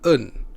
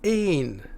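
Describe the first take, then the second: First: The word is said unstressed, with a weak vowel. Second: The word is said stressed, with a full vowel. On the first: It is the article meaning a. "as an unstressed E" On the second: It means the number one. "Then it is pronounced as één"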